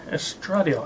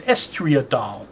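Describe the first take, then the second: First: The 'ee' sound comes after the d. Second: The 'ee' sound comes before the d. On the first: The speaker calls it right. "using the correct pronunciation" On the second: The speaker calls it wrong. "I thought it was estriadol, but no, I got the letters mixed up"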